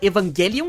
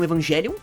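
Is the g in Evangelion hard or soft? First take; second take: hard; soft. First: The g is said as a hard g sound. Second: The g is said as a soft j sound. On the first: The speaker calls it right. "eu falo ela Evangelion ... eles pronunciam o G mais forte" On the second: The speaker calls it wrong. "e não Evangelion"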